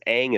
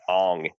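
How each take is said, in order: First: The vowel sounds like the 'a' in 'hang'. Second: The vowel sounds like the 'o' in 'song'. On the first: This is the original show's pronunciation. The speaker calls it right. "Aang is the pronunciation" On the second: This is the film's changed pronunciation. The speaker calls it wrong. "They pronounce Aang as Ong in this movie"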